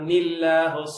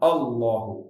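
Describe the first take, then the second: First: The l sound is light and soft. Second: The l sound is heavy and thick. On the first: "கஸ்ராக்கு பிறகு மென்மையாயிரும்" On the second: "ஃபத்தா வைக்கப்படும் பொழுது தடிப்பமாயிரும்"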